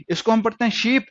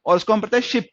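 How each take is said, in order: First: शीप with a long stretched ee. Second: शिप with a quick short i. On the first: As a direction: hold the ee in शीप. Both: Shown as a demonstration. Teacher contrasting शीप and शिप for learners.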